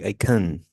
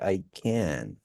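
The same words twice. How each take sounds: First: The vowel in 'can' is reduced to schwa. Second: The vowel in 'can' is full and clear. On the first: The word is followed by more of the sentence. "Remember the schwa" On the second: The word stands alone at the end. "you use can like that when it's like alone"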